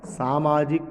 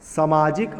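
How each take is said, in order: First: सामाजिक as "saa-maajik", first vowel held; long first vowel. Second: सामाजिक said "samaajik", first syllable short; short first vowel. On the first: Teacher contrasting the correct form, long first vowel. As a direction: lengthen the "saa" that opens सामाजिक. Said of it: "आ की मात्रा होगी". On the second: Teacher reading the wrong form, short first vowel. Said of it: "गलत हो जाएगा". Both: Shown as a demonstration.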